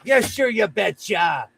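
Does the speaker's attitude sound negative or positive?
positive. The phrase sounds warm and positive. The speaker genuinely agrees. "it could be a positive"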